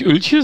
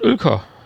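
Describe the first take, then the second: First: The name ends with a soft 'ch' sound. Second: The name ends with a hard 'k' sound. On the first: The speaker calls it wrong. "Nicht Ölche" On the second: The speaker calls it right. "sondern Ölka"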